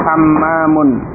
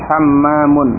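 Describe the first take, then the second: No difference in how they are said.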